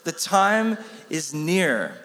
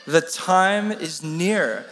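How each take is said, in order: First: Slow, deliberate The time is near; slow unison recital. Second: Slow, drawn-out recital of The time is near; slow unison recital. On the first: Preacher has the room answer his question slowly. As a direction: draw out each word as the answer. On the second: Preacher leading the congregation in a slow recital. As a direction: speak it slowly together with the room. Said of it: "Can we say it?". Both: Shown as a demonstration.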